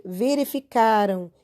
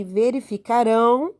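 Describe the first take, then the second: First: "verificaram" stressed on the syllable ca. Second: "verificarão" stressed on the final rão. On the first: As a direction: let the ending of "verificaram" fall away after a strong ca. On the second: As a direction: push the last syllable of "verificarão". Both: Shown as a demonstration. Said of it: "diferença no som".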